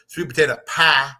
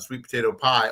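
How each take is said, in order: First: It is said in Sabrina's Southern accent. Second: It is said in the speaker's plain accent.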